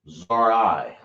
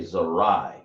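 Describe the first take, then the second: First: It is split into two separate parts. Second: It is said as one smooth word. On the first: The speaker calls it wrong. "Or you can just say it like this" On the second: The speaker calls it right. "I say Zarai"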